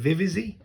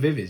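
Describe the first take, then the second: First: The name ends with an extra zee syllable. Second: The name ends with a plain z sound. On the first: The speaker calls it right. "You say, is it Vivizy?" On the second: The speaker calls it wrong. "You don't say Vivi's"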